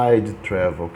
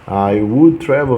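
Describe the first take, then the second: First: The words 'I would' are contracted to 'I'd'. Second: The words 'I would' are said in full.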